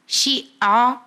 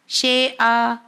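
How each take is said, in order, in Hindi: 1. पहला स्वर 'i' की आवाज़ देता है। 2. पहला स्वर 'e' की आवाज़ देता है। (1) "ये सही मखरज है और सही अदायगी है" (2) "जेर को ए का साउंड देते हैं"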